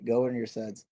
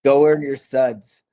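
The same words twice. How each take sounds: First: "Go earn your suds" softer, said to himself; quiet echo of motto. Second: "go earn your suds" louder and higher, slow and deliberate; emphatic motto. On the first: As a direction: let the motto settle back down, quietly. Repeating the motto again, softer. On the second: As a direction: drive the motto home, slowly and loud. Repeating his motto with emphasis. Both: Retold or imitated.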